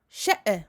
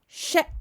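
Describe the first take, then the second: First: The ending bounces with an extra echo sound. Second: The sound is cut off by a sudden catch. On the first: The speaker calls it wrong. "ici je forme une qalqala. Et il ne faut pas faire ça" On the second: The speaker calls it right. "je coupe uniquement le son, ... je referme soudainement les cordes vocales"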